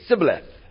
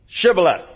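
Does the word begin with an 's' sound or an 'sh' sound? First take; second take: s; sh. First: The word begins with a plain 's' sound. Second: The word begins with an 'sh' sound. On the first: The speaker is from Ephraim. The speaker calls it wrong. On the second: The speaker is not from Ephraim. The speaker calls it right.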